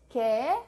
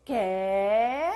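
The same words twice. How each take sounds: First: "Qué" said loud with a rising question tune; short, loud, rising "Qué". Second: Loud, drawn-out Catalan-style "Qué"; exaggerated Catalan questioning "Qué"; mock Catalan Qué. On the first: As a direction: ask "Qué" briefly and loudly, lifting at the end. Models question word before exaggerated version. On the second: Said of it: "Como los cataluños". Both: Shown as a demonstration.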